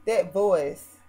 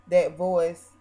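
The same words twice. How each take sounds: The two takes are said the same way.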